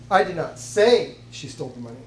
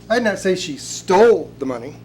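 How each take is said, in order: First: The word 'say' carries the main stress. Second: The word 'stole' carries the main stress. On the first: It may be true but is not being claimed. "It's possible she did, but I'm not saying it" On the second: It may have been borrowed instead. "She may quite possibly have borrowed it"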